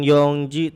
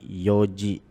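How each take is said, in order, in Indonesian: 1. Ada bunyi n sebelum "ji". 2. Tidak ada bunyi n sebelum "ji". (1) "Bukan yongji" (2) "tapi yoji ya"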